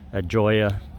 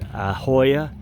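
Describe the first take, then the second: First: The middle consonant is a J sound. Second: The middle consonant is an H sound. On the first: "That's what, how I pronounce it" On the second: "they do it Ahoya with an H"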